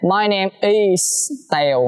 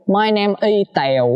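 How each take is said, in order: First: The s sound of 'is' is clearly hissed. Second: The s sound of 'is' is dropped. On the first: The speaker calls it right. "xì ra một cái" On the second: The speaker calls it wrong. "nhiều bạn học phát âm mới đầu hay bị vậy nè"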